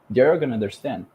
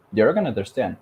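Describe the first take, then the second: No difference in how they are said.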